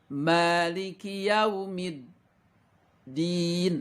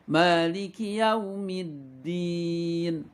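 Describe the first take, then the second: First: There is a brief pause inside the phrase. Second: The phrase flows without any pause. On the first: The speaker calls it wrong. "seperti itu tidak boleh. Tidak boleh ada diam bacaannya" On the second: The speaker calls it right. "gak boleh ada jedanya ya"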